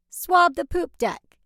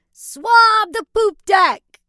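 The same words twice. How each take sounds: First: Said in the usual way. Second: Slow loud high pirate order; drawn-out pirate command. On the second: Acted. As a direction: bark it like a captain. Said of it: "Use your best pirate voice".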